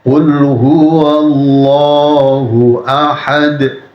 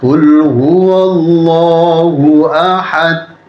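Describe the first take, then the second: First: The final d ends with a bouncing echo. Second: The final d sounds like a t. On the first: The speaker calls it right. "akhir ayat itu pantulan suara semua" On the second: The speaker calls it wrong. "Itu jadi huruf ta, merubah maksud"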